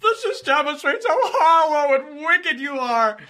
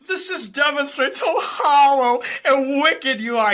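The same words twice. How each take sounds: First: High, loud, sobbing imitation; mock crying. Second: High, loud, whiny mock-crying voice; imitating a rival on the verge of tears; mock tearful whine. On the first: Mocking the rival's tearful line again, sobbing and loud. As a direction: whine it out like he's about to cry. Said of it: "He's literally on the verge of tears". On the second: Mocking the rival's tearful rant to the stream, whiny and loud. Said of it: "He's literally, like, crying".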